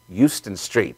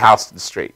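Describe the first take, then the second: First: It is said the Texas way. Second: It is said the New York way. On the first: "some people from Texas were on a train and they wanted Houston Street" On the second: "We say Houston Street"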